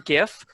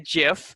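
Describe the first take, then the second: First: The word begins with a hard g sound. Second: The word begins with a soft j sound. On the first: "I prefer GIF" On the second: "like like the peanut butter"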